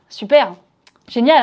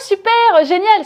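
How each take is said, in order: First: It sounds ironic and sarcastic. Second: It sounds sincerely enthusiastic. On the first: The speaker is actually annoyed. The speaker calls it right. "un ton un peu plus ironique" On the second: The speaker is genuinely pleased. The speaker calls it wrong. "C'est pas oh super, génial"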